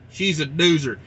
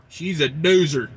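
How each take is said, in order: Both takes have the same delivery.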